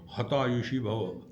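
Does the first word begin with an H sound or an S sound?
H sound. The first word begins with an H sound. "They will say Hata Yushi Bhava"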